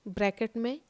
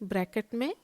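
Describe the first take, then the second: No difference in how they are said.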